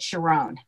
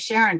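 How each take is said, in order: First: The name is pronounced the Hebrew way. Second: The name is pronounced the usual English way.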